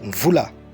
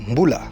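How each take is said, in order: First: The word has a V sound after the M. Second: The word has a B sound after the M. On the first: This is how it is said in Congo-Brazzaville. "au Congo-Brazzaville, on dit Mvula" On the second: This is how it is said in the DRC. "en R D C, on dit Mboula"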